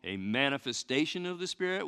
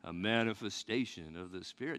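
First: It is said in a normal voice. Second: It is said in a spooky voice.

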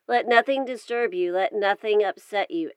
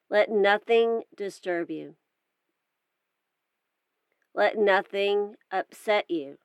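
First: The lines flow on at regular speed. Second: A long pause separates the two lines. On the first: "once through at regular speed" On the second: "again with pauses in between the lines"

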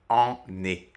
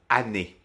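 First: The first vowel is nasal. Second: The first vowel is oral, not nasal. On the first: The speaker calls it wrong. "et non pas en-nez, qui ne serait pas très pratique à prononcer" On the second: The speaker calls it right. "le son nasal disparaît"

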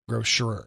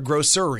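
First: The middle sounds like the word 'sure'. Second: The middle sounds like the word 'sir'. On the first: "Grocery, shuri" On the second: "I bet she says a sir"

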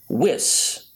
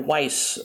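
First: The vowel rhymes with Swiss. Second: The vowel does not rhyme with Swiss. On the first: This is the official pronunciation. The speaker calls it right. "it's officially Wiss, as Wiss? In Swiss Miss" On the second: This is the mistaken pronunciation used before. The speaker calls it wrong. "we have mispronounced one of our stars' names"

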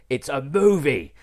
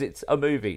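First: The phrase is shouted loudly. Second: The phrase is said at normal, quiet volume. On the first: The speaker calls it right. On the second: The speaker calls it wrong.

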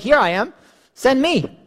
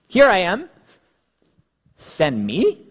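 First: The voice falls at the end. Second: The voice rises at the end.

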